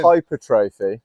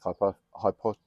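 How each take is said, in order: First: "Hypertrophy" said slow and careful, every syllable placed; finally said. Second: "hypo-" tried twice and cut off mid-word; stumbled word. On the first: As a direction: land "Hypertrophy" slowly at last. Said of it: "I'll get it back". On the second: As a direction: trip over "hypo-" and stop short. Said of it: "I can't speak". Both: Real, not acted.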